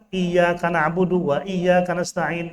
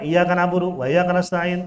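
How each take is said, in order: First: The doubled consonants are held and pressed. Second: The doubled consonants are not held long. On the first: The speaker calls it right. "Itu ditekan ada tasydid" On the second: The speaker calls it wrong. "Nggak sah"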